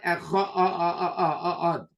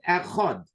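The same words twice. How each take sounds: First: The word is said with an extra vowel added. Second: The word is said plainly with no added sound. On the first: The speaker calls it wrong. "not Echad. ... You can't add any letters" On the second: The speaker calls it right. "the word is Echad"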